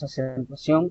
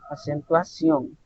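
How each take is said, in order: First: The word runs together with no marked emphasis. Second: The final syllable is clearly emphasized. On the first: The speaker calls it wrong. "No decimos acentuación corrido" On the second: The speaker calls it right. "hacemos referencia al final en el ción"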